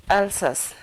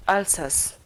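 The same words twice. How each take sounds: The two takes are said the same way.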